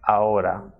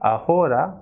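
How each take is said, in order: First: The H in the middle is not pronounced. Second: The H in the middle is pronounced. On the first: The speaker calls it right. "but it is ahora" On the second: The speaker calls it wrong. "and not ahora"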